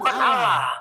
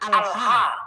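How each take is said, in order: First: The word is said as one word ending lah. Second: The word is said as al then ha. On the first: The speaker calls it wrong. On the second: The speaker calls it right.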